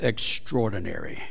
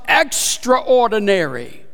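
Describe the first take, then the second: First: The word is said blended, with 'extra' reduced. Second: The word is said as stressed 'extra' plus 'ordinary'. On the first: "Or if you want to be grammar police" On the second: "there's more emphasis here on extraordinary. Above and beyond"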